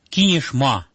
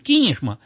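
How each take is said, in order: First: The stress is on the last syllable. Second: The stress is on the first syllable. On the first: The speaker calls it wrong. "но я слышу порой «Кинешма»" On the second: The speaker calls it right. "В первом слоге на «ки», не на «ма»"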